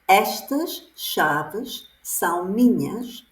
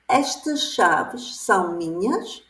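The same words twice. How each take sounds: First: It is said with statement intonation. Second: It is said with question intonation. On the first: It states that the keys belong to the speaker. "is the phrase" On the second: It asks whether the keys belong to the speaker. "The question would be"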